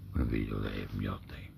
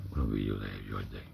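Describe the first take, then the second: No difference in how they are said.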